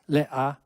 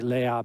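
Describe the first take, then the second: First: A glottal stop separates the two vowels. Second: The two vowels run together without a stop. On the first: This is the historical, careful pronunciation. "you can put a nice little glottal stop in there" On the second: This is the rushed everyday street pronunciation. "They just say"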